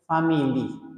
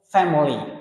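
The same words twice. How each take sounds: First: The word is said with three syllables. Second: The word is said with two syllables. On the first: The speaker calls it wrong. "Don't say family" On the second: The speaker calls it right. "two syllables"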